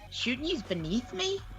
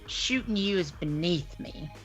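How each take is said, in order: First: It is said as a question, rising. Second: It is said as a statement, falling.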